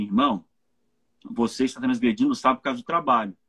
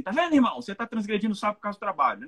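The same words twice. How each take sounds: First: Lower, measured brotherly admonition; sober, low-pitched appeal to a brother; caring correction. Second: Higher, quick finger-wagging scolding; hasty, high-pitched telling-off; accusing rebuke. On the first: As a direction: gently confront him, low and deliberate. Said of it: "É eu chegar pra ele e falar assim". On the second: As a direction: pounce on a brother's fault, rattling it off. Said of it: "É muito fácil chegar e falar assim". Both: Acted.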